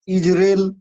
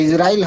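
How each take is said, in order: First: इजराइल said Iz-rel, the ai shortened to a plain e; correct pronunciation. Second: इजराइल said Iz-ra-il, with a clear ai in the last syllable; the usual reading. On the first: Teacher gives the right way to say it to students: इजराइल as Iz-rel. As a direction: say इजराइल as two quick syllables, Iz-rel. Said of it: "ऐसे होता है pronunciation". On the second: Teacher shows how students usually read it: इजराइल with -rail. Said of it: "इजराइल हम लोग पढ़ते हैं". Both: Shown as a demonstration.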